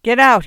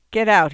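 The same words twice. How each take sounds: First: Louder, harder get-out, nearly a shout; he repeats his order more angrily; angry order. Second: Short, firm get-out with a fall; a sick man ordering a visitor out; curt order. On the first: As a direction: bark it this time, losing patience. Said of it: "he said again". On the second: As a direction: tell her to leave, flatly firm. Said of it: "he said". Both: A narrator's reading.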